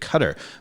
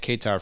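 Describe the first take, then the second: First: It is said the native way. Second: It is said the American way. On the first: This is how the country's own people say it. The speaker calls it right. "the correct, correct pronunciation of the country has always been Qatar" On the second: This is how people in the US say it. The speaker calls it wrong. "everybody in the U S has always been calling it Qatar"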